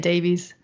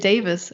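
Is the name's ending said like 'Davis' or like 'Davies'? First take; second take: Davies; Davis. First: The name is said with a 'Davies' ending. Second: The name is said with a 'Davis' ending. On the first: This is the way used outside the UK. "everywhere else, ... you just say Davies" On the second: This is the Welsh way used in the UK. "in the U K, if you say D A V I E S, you say Davis"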